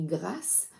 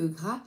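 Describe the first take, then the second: First: The final s sound is clearly pronounced. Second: The final s sound is left silent. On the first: The speaker calls it right. "moi je prononce Stéphanie Grass" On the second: The speaker calls it wrong. "c'est plus joli que Gras"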